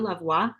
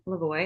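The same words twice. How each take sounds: First: The name is said with a French pronunciation. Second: The name is said with an English pronunciation. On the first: "you can pronounce it the French way too" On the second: "I pronounce it the English way"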